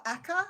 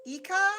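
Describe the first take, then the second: First: "Eka" with a short e opening; alternative pronunciation. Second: "Ika" with a long ee opening; first pronunciation attempt. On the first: Streamer offering another way to say a viewer's name, "Eka" with an eh. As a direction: say "Eka" starting like "echo". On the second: Streamer greeting a viewer, unsure how to say the name, "Ika" with an ee. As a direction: say "Ika" starting like "eek". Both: Shown as a demonstration. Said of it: "I'm not sure how I say that".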